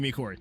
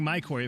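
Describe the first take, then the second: First: The first syllable sounds like 'me'. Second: The first syllable sounds like 'my'. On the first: The speaker calls it right. "you told me it was me Corey" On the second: The speaker calls it wrong. "Now that I'm saying my Corey"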